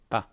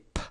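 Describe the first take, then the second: First: The p is released without a puff of air. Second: The p is released with a puff of air. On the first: The speaker calls it right. "we say pa" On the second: The speaker calls it wrong. "we don't say p"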